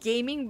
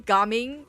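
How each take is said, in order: First: It sounds like the English word gaming. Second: It sounds unlike the English word gaming. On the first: The speaker calls it wrong. "I keep on pronouncing it as gaming" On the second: The speaker calls it right. "but it's actually gaming"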